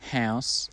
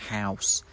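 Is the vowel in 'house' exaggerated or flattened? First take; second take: flattened; exaggerated. First: The diphthong is flattened, with little glide. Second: The diphthong is exaggerated, with a wide glide. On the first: This is how it sounds in the boarding-house variety. "I would flatten the diphthong" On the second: This is how it sounds in the local school variety. "you would sort of exaggerate the diphthong almost"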